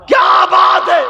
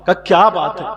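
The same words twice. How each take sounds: First: High, loud questioning cry; urgent shout. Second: Said in the usual way. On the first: Acted. Fatima urgently asking the weeping Bilal, shouted. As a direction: demand the answer with a shout. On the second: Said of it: "repeated question building".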